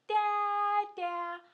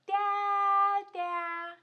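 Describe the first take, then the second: First: Sung, high sing-song call. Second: Loud playful call through a door. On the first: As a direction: sing his name out to the door. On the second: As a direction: yell for daddy behind the door. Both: Pretend. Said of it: "we better yell for him".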